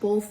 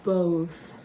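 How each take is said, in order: First: The word is said with an L sound. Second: The word is said without an L sound. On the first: The speaker calls it wrong. "she said both with an L" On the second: The speaker calls it right. "the right way to say it is both"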